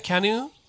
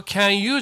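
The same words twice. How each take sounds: First: "Can you" as one "kanyu", rising; linked pronunciation. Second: "can you" as separate "kyan yuu"; unlinked mispronunciation. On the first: Teacher corrects with a linked "Can you". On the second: Teacher shows what not to say, "can you" unlinked. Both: Shown as a demonstration. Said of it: "can youじゃないよね".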